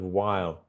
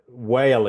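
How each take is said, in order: First: The vowel sounds like 'eye' as in my. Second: The vowel sounds like 'ay' as in day. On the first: The speaker calls it right. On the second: The speaker calls it wrong.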